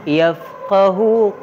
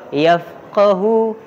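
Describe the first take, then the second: Both takes have the same delivery.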